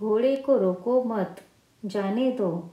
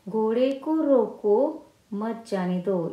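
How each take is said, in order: First: There is a pause after the word 'mat'. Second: There is a pause after the word 'roko'. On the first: The horse should not be stopped but let go. "मत के यहाँ पर अल्पविराम लगा देते हैं" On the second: The horse should be stopped and not let go. "पहले वाक्य में रोको, यहाँ पर अल्पविराम देने से"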